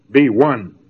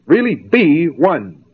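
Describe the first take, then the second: First: Said in the usual way. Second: Really slowed and leaned on, be one drawn out; slow down and hit Really hard; stress on Really. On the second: Shown as a demonstration. Lecturer to students, urging with slow stressed Really.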